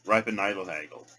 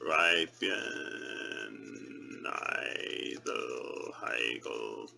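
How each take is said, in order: First: Rattled off briskly; quick run-through. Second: Chanted, low, very slow intoning; chanted, stretch every syllable out, low and slow; slow, drawn-out chant. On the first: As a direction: say the three words fast as one phrase. Trying the phrase quickly. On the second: Trying the phrase slowly, drawn out. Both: Shown as a demonstration.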